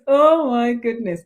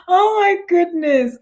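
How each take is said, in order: First: Said in the usual way. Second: Amused exclamation. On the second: Real, not acted.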